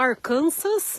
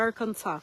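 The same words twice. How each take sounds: First: The final S is sounded at the end. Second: The final S is silent at the end. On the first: The speaker calls it wrong. "a gente fala Arkansas" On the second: The speaker calls it right. "na verdade se pronuncia Arkansas, sem o S"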